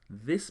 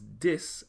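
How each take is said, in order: First: It is said with an English th sound. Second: It is said with a Patois hard d.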